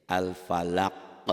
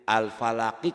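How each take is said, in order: First: Al-falaq slow, final q popped with an echo; qalqalah stop. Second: Al-falaqi read through, final -qi fully voiced; full ending. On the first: Teacher shows the reading when one stops, bouncing qalqalah. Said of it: "Kalau kita berhenti membacanya". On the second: Teacher quizzes on the unstopped word, full ending. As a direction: sound the last i of "Al-falaqi". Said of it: "qalqalah bukan?". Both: Shown as a demonstration.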